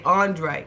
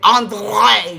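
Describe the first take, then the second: First: The name is said plainly, without extra emphasis. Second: The name is said with heavy, drawn-out emphasis. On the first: "just say Andre" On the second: "why does she have to put all the emphasis on his name?"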